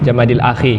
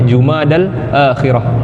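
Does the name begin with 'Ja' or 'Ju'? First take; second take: Ja; Ju. First: The name begins with a 'Ja' sound. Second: The name begins with a 'Ju' sound. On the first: "kalau orang Melayu kita biasa sebut Jamadil" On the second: "sebutan yang betul untuk bulan Islam adalah Jumada"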